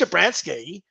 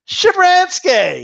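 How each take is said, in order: First: The name starts without a clear 'sh' sound. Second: The name starts with a clear 'sh' sound. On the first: The speaker calls it wrong. "not just Shabransky" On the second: The speaker calls it right. "you got to put that sh into it"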